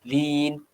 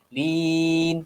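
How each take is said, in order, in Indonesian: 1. Vokal itu dibaca dua ketukan. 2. Vokal itu dibaca empat ketukan. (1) "dua harakat" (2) "empat harakat"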